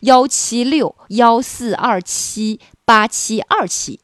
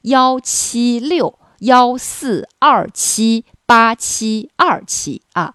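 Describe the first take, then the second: First: The number is said at normal speed. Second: The number is said more slowly.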